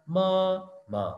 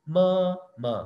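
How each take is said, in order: The two takes are said the same way.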